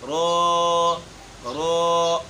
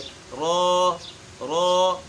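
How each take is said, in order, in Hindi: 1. स्वर को लंबा खींचा जाता है। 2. आवाज़ छोटी, बराबर और चिकनी होती है। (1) "मद इसमें लेकर आते हैं, हालांकि इसमें मद मौजूद नहीं है" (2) "इसके पढ़ने का जो असल तरीका है"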